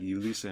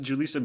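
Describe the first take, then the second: First: The name begins with a Y sound. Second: The name begins with a J sound. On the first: This is how the station said the name. "they were like Yulisa" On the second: This is how most viewers would expect the name. "why not just pronounce it Julissa?"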